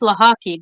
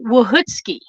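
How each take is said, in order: First: The name begins with an L sound. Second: The name begins with a W sound. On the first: This is the Americanized pronunciation. "It's pronounced Lahaki" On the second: This is the original Polish pronunciation. "if it were pronounced in Polish, it would be"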